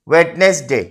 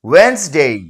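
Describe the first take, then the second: First: It is said with three syllables. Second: It is said with two syllables. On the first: The speaker calls it wrong. "এটা কিন্তু ভুল উচ্চারণ।" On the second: The speaker calls it right. "এর শুদ্ধ উচ্চারণ হবে ওয়েন্সডে।"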